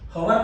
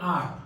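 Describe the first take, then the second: First: The word begins with an h sound. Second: The word sounds like a single ar vowel. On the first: The speaker calls it wrong. "હવર નથી" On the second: The speaker calls it right. "It's cold properly આર"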